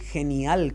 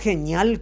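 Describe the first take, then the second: First: The middle is pronounced as separate n and i. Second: The middle is pronounced with an ñ sound. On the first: The speaker calls it right. "genial con N I" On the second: The speaker calls it wrong. "no es genial con ñ"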